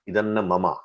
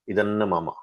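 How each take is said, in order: No difference in how they are said.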